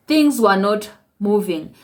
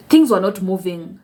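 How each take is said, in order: First: "Things were not moving" said slowly, each word weighted; slow emphatic repeat. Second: Said in the usual way. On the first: Real, not acted.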